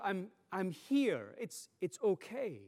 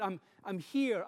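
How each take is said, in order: First: Slower soothing. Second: Light, tender I'm here; gentle reassurance. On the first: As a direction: settle the child, slowing right down. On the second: Parent repeating comfort to a child in the dark, gentle. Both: Shown as a demonstration. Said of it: "often we repeat it".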